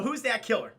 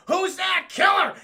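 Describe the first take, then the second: First: One run-on line, no pause. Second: High, loud shout to kill; shouted order. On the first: Shown as a demonstration. Villain orders a kill, all in one breath. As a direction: run it together with no beat between. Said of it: "not a beat drop, not like a fucking pause". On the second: Retold or imitated. Sharon Stone orders her henchmen, loud shout. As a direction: bark it out like a villain boss. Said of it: "Sharon Stone goes".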